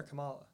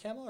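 First: Kamala said kuh-MAH-luh; Kamala with a weak "kuh", then "MAH-luh"; second-syllable stress. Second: Kamala said KAM-uh-luh; Kamala as "CAMEL-uh"; first-syllable stress. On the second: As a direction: open Kamala with a stressed "cam". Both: Shown as a demonstration. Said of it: "Is it Kamala or Kamala".

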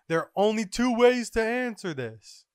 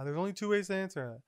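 First: High, loud declaration; raised, theatrical character voice; scientist's proclamation. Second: Said in the usual way. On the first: Acted. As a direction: proclaim it like a grand announcement. Acted announcement by Vegapunk.

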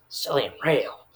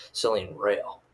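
First: "Selling Rail" said higher, rising at the end; exaggerated repeat. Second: Said in the usual way. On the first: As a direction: lift "Rail" in a mock-impressed repeat. Repeats the font name, exaggerated.

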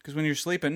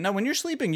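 First: Said in the usual way. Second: Correcting himself, sleeping pitched high; stress on sleeping. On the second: Shown as a demonstration. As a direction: lift the word sleeping up high to fix the point.

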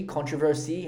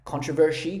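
First: "controversy" said with a clean s, controver-see; "controversy" with a plain -see ending; alternative pronunciation. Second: "Controversy" said with a sh sound, controver-shee; "Controversy" with a slushy -shee ending; alternative pronunciation. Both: Shown as a demonstration. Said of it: "however you wanna fucking say it".

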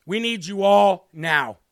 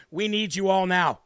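First: "We need you all now" slowed, each word weighted; emphatic repeat. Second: Said in the usual way. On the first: Real, not acted. Preacher repeating his plea to the congregation, slow and emphatic. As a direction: stretch "all", pause, then land "now".

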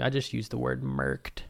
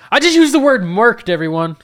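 First: Said in the usual way. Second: High, loud announcement of own disbelief; excited shout. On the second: Shown as a demonstration. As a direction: shout it to everyone, astonished.

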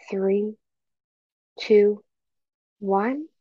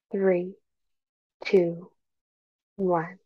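No difference in how they are said.

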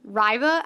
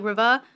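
First: Riva said RYE-vuh, long i like rye. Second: Riva like River with a British uh. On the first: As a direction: Riva with the vowel of ride, stress first. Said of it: "it's spelled R I V A H". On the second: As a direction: Riva as RIV-uh, no r at the end. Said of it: "like, an uh sound". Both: Shown as a demonstration.

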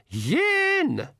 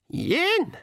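First: High, drawn-out count from the crowd; pixie shout. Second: High-pitched pixie call; old pixie counting. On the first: Pixie band counts before firing, high mock shout. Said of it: "shouted the Nac MacFeagle". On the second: Old pixie starts counting down to the shot, high call. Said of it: "said the old pixie". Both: A narrator's reading.

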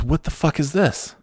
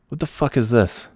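First: Higher voice, half-laughing outrage; mock-indignant, pitched up; Nate's outraged question. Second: Said in the usual way. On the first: Friend retells Nate finding his name, higher outraged. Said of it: "He goes". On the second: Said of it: "all of a sudden Nate goes".

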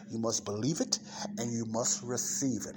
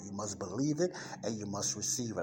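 First: Deliberate stress on "believe" and "receive"; emphatic stress. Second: Said in the usual way. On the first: Real, not acted. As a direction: lean on "believe", pause, then land "receive". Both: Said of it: "I put emphasis on that".

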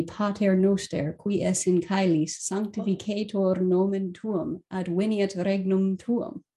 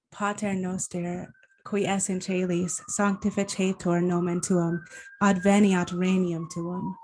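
First: Pater Noster with hard c in caelis, said as kaelis, and w-sounds; classical Latin pronunciation. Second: Caelis said as chay-lees, regnum as ren-yum, church Italianate style; ecclesiastical Latin pronunciation. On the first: Host reading the Our Father in classical Latin pronunciation. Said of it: "In the classical pronunciation". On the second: Guest answering with the Our Father in church Latin pronunciation. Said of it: "Or in the ecclesiastical pronunciation". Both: Shown as a demonstration.

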